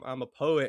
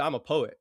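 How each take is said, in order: First: It is said in a timid, hesitant tone. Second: It is said in a confident, assured tone. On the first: "it's kinda, like, timid" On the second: "you say it confidently"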